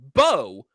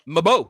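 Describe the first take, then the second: First: It starts with a B sound and no M. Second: It starts with an M sound before the vowel. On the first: The speaker calls it right. "It's pronounced Bo, but with an M" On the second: The speaker calls it wrong. "You think Mabo. That's not correct"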